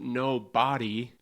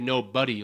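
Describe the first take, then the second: First: The second part sounds like 'body'. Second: The second part sounds like 'buddy'. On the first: "It's spelled no body" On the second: "we all say no buddy"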